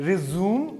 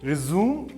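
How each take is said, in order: First: The word ends with an 'oom' sound. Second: The word ends with an 'oom' sound.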